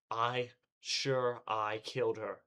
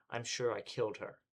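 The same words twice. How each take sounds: First: Drawn-out, louder obsessive repeat; slow, rising-to-breaking disbelief; slow, desperate insistence. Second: Said in the usual way. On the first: Acted. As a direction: drag each word out, losing grip.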